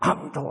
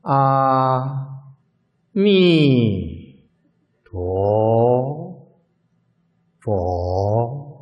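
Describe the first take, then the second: First: It is recited very quickly and blurred. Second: It is recited very slowly and drawn out.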